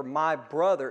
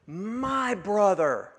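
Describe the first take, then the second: First: Said in the usual way. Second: Slow, weighty "My brother." with stress on "My"; emphatic. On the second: Shown as a demonstration. Pastor showing Mary's emphatic "My brother." with stress on "My". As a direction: lean hard on "My" in "My brother.", drawn out. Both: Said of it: "is actually more emphatic".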